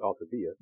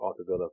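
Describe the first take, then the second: First: The name is said with Spanish pronunciation. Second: The name is said with English pronunciation. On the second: "for the Anglos"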